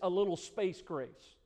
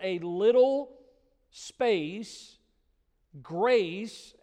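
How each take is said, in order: First: Space and grace run together as one phrase. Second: There is a break between space and grace. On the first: Space grace is treated as a single thing. The speaker calls it wrong. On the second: Grace is shown for a short time. The speaker calls it right.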